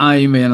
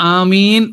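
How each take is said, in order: First: The word begins with an 'eye' sound. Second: The word begins with an 'ah' sound. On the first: It follows the English way of saying it. The speaker calls it wrong. "ആംഗലേയ സംസ്കാരമൊക്കെ നമ്മുടെ അകത്തേക്ക് വന്നിട്ട് ആമീനെ അങ്ങ് ഐമീനൊക്കെ ആക്കി" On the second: It keeps the original word used in every language. The speaker calls it right. "ആമീൻ എന്ന് തന്നെ പറയുന്നതാണ് നല്ലത്"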